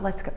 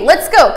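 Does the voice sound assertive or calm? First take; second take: calm; assertive. First: It is said in a lower, calmer voice. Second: It is said in a firm, confident voice. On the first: The owner is soothing and settling the dog. "that lower voice... the calmer" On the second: The owner is in charge and protecting the dog. "assertive as in, I got you"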